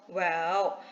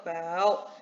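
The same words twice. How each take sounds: No difference in how they are said.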